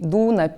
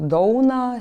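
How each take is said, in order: First: It is said in the southern Samogitian dialect. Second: It is said in the northern Samogitian dialect. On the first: "pietų žemaičiai dūna" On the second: "šiaurės ir vidurio žemaičiai sakytų dauna"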